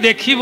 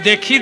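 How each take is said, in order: The two takes are said the same way.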